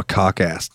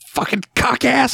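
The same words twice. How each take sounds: First: Said in the usual way. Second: High, drawn-out mock yell; shouted insult. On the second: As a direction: hurl it slowly as a film insult. Acts out film insult.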